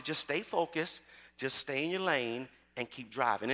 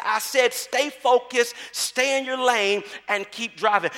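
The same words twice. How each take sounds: First: Low, soft, unhurried reassurance; softly voiced steady mama; calm coaching mother. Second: Firm mother, voice slightly raised; mildly raised, insistent mama voice. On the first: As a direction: coach a nervous driver gently and steadily. Mother coaching nervous daughter, story. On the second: Retold or imitated. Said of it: "her mama raises her voice".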